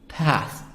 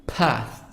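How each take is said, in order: First: It is said with an American accent. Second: It is said with an American accent.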